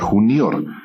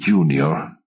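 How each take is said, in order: First: It is pronounced with a Latin accent. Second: It is pronounced with an English accent. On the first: This is how it was originally said. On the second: It sounds elegant. "A ver si te lo digo en inglés"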